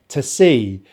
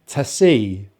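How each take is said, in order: The two takes are said the same way.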